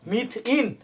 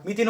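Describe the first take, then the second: First: "মিথ ইন" split before ইন; syllables separated. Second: Said in the usual way. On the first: Shown as a demonstration. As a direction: say "মিথ ইন" as two separate parts. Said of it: "ইন উচ্চারণ আছে না". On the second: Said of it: "কি উচ্চারণ আছে".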